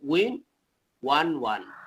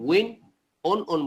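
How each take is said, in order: First: The past form sounds like 'one'. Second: The past form sounds like 'on'. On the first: The speaker calls it right. "আমরা ওয়ান two three যেভাবে ওয়ান বলি সেই রকম ভাবে উচ্চারণ হবে ওয়ান" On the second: The speaker calls it wrong. "উইন অন অন বলবো না"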